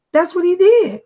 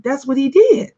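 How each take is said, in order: First: "That's what he did" with "did" pitched higher and hit hard; insistent repeat, "did" hit high; emphatic repeat. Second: Said in the usual way. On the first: Real, not acted. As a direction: press the repeat home on "did".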